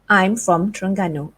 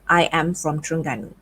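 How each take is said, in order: First: The pronoun and verb are joined into one syllable. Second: The pronoun and verb are said as two words. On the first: "you can shorten it to I'm" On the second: "instead of I am from Terengganu"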